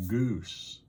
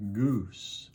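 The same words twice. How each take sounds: First: Goose said slowly, Southern American style. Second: Said in the usual way. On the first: Shown as a demonstration. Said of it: "I say goose". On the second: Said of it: "how do you all pronounce goose?".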